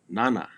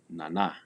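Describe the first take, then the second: First: The stress is on the first syllable. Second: The stress is on the second syllable. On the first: The speaker calls it wrong. "It is not nana" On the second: The speaker calls it right. "The stress or the accent is placed on the second syllable"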